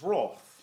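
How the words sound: The word is said the English way. "That's how English people pronounce it"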